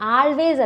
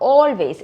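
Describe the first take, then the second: First: The first vowel is an open 'ah' sound. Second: The first vowel is a rounded 'aw' sound. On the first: The speaker calls it wrong. "ആൾവേസ് അല്ല" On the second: The speaker calls it right. "ഓ എന്നാണ് pronounce ചെയ്യുക"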